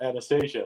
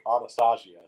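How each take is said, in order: First: The name is said with an English pronunciation. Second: The name is said with a Russian pronunciation. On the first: The speaker calls it wrong. "not Anastasia" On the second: The speaker calls it right. "more Russian, like Anastasia"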